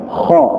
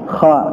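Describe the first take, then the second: First: The vowel is heavy, leaning toward 'o'. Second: The vowel is a thin, light 'a'. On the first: The speaker calls it right. "Harusnya dibaca kha, karena vokal huruf tebal itu ya o" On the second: The speaker calls it wrong. "Jangan sampai kita baca kha"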